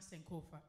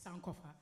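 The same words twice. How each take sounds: First: The word is said with an American pronunciation. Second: The word is said with a Ghanaian pronunciation. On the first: The speaker calls it wrong. "It's not Sankofa" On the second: The speaker calls it right. "it's Sankofa"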